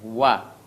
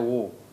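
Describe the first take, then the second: First: The syllable is light, with a thin open vowel. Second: The syllable is heavy, with a thick rounded vowel. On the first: The speaker calls it right. "huruf waw ini adalah huruf tipis" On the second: The speaker calls it wrong. "tidak pernah ada wo"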